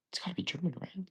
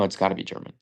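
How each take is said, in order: First: Whispered. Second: Said in the usual way. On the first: Real, not acted. Muttering trivia guess to himself.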